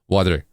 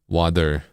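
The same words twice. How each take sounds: First: The word is said very quickly. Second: The word is said at a normal pace.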